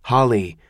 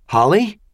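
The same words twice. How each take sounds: First: Said in the usual way. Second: Alarmed call. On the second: Acted.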